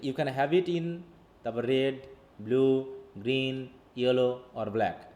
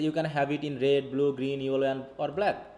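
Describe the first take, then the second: First: The sentence is split into chunks with pauses. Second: The sentence is read straight through without chunking. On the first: The speaker calls it right. "এগুলোকে ভাগ করে দিচ্ছি" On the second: The speaker calls it wrong. "Just আমি simply পড়ে গেলাম"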